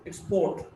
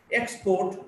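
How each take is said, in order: First: "export" as ex-PORT; weak start, strong PORT in "export"; stress on second syllable. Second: "export" as EX-port; stress on first syllable. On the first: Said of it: "stressed in the second syllable". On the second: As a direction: hit the EX of "export". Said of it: "stressed in the first syllable". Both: Shown as a demonstration.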